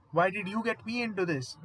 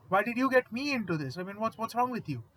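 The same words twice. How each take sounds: First: Said in the usual way. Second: High, loud panicky whine, a coward imitated; cowardly whine. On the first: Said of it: "Wisconsin immediately says". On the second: Coward Wisconsin blaming Hall, panicky high whine. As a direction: whine it like a big coward caught out. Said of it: "a big-ass coward".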